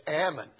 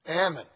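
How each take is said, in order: First: It is said in the California regional pronunciation. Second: The same.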